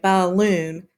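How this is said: The syllables are exaggerated and pulled apart. The speaker calls it wrong. "That's not the normal way we say balloon"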